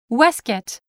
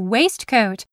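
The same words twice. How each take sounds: First: The word is pronounced in a shortened, reduced form. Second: The word is pronounced fully, as it is spelled. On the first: This is the British way of saying it. "the British waistcoat" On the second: This is the American way of saying it. "the way it is spelled"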